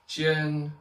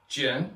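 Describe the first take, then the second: First: The tone is high and level. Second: The tone is not high and level. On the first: It means point. "first tone is point" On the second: It means sword. "Jian means sword"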